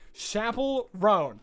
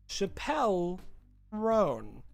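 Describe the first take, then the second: First: The first name sounds like the word 'chapel'. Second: The first name does not sound like 'chapel'. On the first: "It's pronounced Chapel Roan" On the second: "Am I saying it correctly?"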